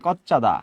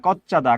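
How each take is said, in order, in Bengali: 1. শব্দ দুটো দ্রুত মিশে একটা শব্দ হয়ে যায়। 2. শব্দ দুটো দ্রুত মিশে একটা শব্দ হয়ে যায়।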